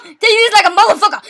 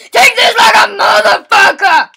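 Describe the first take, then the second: First: Said in the usual way. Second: Loud taunt. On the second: Real, not acted. Louder repeat of taunt.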